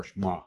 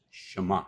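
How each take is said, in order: First: Shema run together as shmah, lower; pronunciation variant. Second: Shema as shuh-MAH, two syllables; pronunciation variant. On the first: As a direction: say Shema as one syllable, SHMAH. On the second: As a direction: say Shema with a short uh, then MAH. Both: Shown as a demonstration. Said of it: "depending on how it's pronounced".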